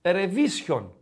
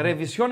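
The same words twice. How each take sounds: First: Ρεβίσιον with the stress moved to βί; stress on middle syllable. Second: Ρεβισιόν with the stress on final όν; stress on last syllable. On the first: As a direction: lean on βί in ρεβίσιον, ending unstressed. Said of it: "Αν δεν είχε τόνο". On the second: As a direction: land on the o at the end of Ρεβισιόν. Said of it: "έχει τόνο το όμικρον". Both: Shown as a demonstration.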